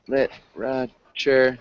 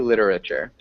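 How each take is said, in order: First: The word is said in a British-like accent. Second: The word is said in a non-British accent. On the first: "So that'd be a little bit more like British English" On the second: "But I would say literature"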